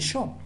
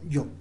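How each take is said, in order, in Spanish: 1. La palabra empieza con un sonido sh. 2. La palabra empieza con un sonido y. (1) "no escriben yo" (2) "ellos escriben yo"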